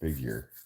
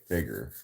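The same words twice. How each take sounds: First: It is said with a standard pronunciation. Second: It is said with a country pronunciation.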